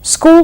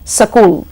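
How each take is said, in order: First: It starts directly with the s-k cluster. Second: A vowel is inserted between s and k.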